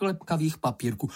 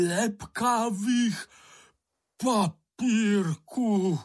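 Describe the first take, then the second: First: Said in the usual way. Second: Much higher, very slow, near-crying echo; aghast repetition. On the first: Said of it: "opakoval Bambul". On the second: Acted. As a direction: repeat it in horror, the words dragged out. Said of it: "opakoval Bambul a zbledl". (zděšeně, velmi pomalu, skoro se slzami)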